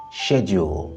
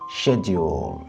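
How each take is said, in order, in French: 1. Il est prononcé avec un accent britannique. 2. Il est prononcé avec un accent britannique.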